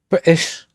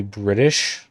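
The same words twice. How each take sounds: First: High, loud mock British accent; terrible British accent. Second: Said in the usual way. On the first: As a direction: blurt it in a hammed-up British accent. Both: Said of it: "Excuse my terrible accent".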